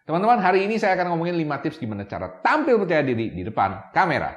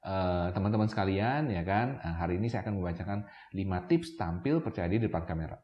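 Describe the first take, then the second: First: "tampil percaya diri" punched high and firm; lively, higher pitch, hitting "tampil percaya diri" and "kamera" hard; confident emphatic intonation. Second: Low, soft, monotone read-out; unconfident reading aloud. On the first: Showing camera beginners the better way, confident emphatic intonation on "tampil percaya diri". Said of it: "penegasan intonasi itu memang beda banget". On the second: Showing camera beginners what not to do, low lifeless reading. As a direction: recite it quietly with no emphasis, hesitant fillers. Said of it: "misalnya saya ngomongnya gini".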